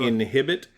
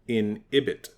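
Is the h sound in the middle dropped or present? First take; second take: present; dropped. First: The h sound in the middle is pronounced. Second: The h sound in the middle is dropped. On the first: "the word inhibit" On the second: "they call it inhibit. Like they don't pronounce the H's"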